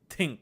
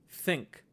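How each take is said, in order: First: The word begins with a plain t sound. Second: The word begins with a soft th sound. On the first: "instead of saying think, say tink" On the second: "instead of saying think"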